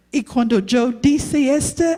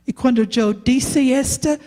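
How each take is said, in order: Both takes have the same delivery.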